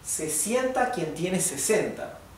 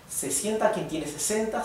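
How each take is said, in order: First: It is read at a normal, slightly slow pace. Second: It is read faster than normal conversation pace. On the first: "this would be normal speed mode" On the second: "Ahora lo voy a tratar de leer más rápido"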